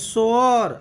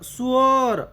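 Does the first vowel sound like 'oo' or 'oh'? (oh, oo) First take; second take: oh; oo. First: The first vowel is an oh sound. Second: The first vowel is an oo sound. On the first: It means a person who sews. "सोअर असा उच्चार जर केला तर शिवणकाम करणारा असा या शब्दाचा अर्थ होईल" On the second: It means a drain. "याचा उच्चार जर सुअर असा जर केला तर अर्थ होईल गटार"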